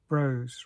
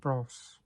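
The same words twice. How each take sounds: First: It is said the American way. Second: It is said like the boy band's name. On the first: This is how the film's title is probably said. The speaker calls it right. "as it's American, it's most probably pronounced" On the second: This is how the boy band's name is said. The speaker calls it wrong. "rather than"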